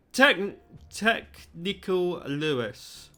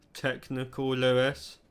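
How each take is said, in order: First: Halting, drawn-out stumble over the name; slow stumbling. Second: Said in the usual way. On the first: Acted. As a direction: trip slowly over the title.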